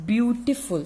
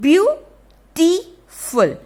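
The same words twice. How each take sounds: First: Said in the usual way. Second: Beautiful drawn out slowly, high and loud; drawn-out demo. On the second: Shown as a demonstration. Teacher to children, stretching the word slowly. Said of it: "B E A U".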